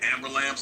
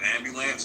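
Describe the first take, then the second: First: The word sounds like 'amber lamps'. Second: The word is said as 'ambulance'. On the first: "if they say amber lamps" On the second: "instead of ambulance"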